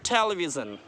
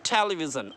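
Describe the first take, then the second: Both takes have the same delivery.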